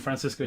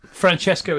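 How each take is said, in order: First: "Francisco" with an s sound, fran-SISS-ko; Spanish form. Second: "Francesco" with a ch sound, fran-CHESS-ko; Italian pronunciation. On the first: Guide contrasting Spanish with Italian, "Francisco" said with an s. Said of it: "Francisco is Spanish". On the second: Guide contrasting Italian with Spanish, "Francesco" said with a ch. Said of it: "Francesco is Italian". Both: Shown as a demonstration.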